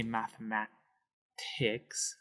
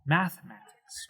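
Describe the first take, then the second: First: "mathematics" slow and softer, with the stress moved off "ma"; mock-wrong "mathematics". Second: "mathematics" with the usual stress on "ma", math-e-MA-tics; correct English stress. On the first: Teacher showing how not to stress "mathematics". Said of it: "we don't wanna say". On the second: Teacher modeling normal stress of "mathematics". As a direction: say "mathematics" naturally. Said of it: "Math, math, mathematics, right?". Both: Shown as a demonstration.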